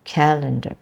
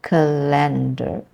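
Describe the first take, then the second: First: Calendar stressed on CAL; calendar, first syllable stressed. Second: Slow calendar stressed ca-LEN-dar; wrong stress on LEN. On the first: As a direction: say calendar the right way, CAL-endar. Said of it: "rather than". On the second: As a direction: show the mistaken stress on LEN. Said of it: "the stress is in the second part of that word". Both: Shown as a demonstration.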